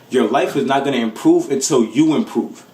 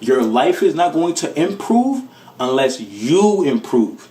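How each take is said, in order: First: It is said at normal speed. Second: It is said slowly.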